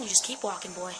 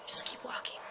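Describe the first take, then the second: First: Said in the usual way. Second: "Just keep walking" whispered, no voice; eerie whispered advice. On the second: Shown as a demonstration. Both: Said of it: "repeats it whispered".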